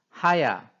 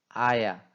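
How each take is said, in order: First: The word begins with an h sound. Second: The word begins directly with a vowel. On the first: "하야로 발음해야 되는데" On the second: "아야 이런 식으로 발음하는"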